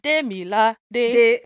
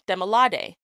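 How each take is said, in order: First: The name carries distinct pitch tones on its syllables. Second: The name carries stress but no distinct tones. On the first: "Then the tones get introduced when you're saying Demilade" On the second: "with emphasis, you're saying Demilade"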